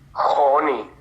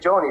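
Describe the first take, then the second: First: The name is read with Spanish letter sounds. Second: The name is said as in English. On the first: "y en español, ¿cómo se diría?" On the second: "tú dices Johnny"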